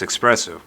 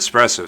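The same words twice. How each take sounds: First: It is said with a k sound before the s. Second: It is said with no k sound before the s.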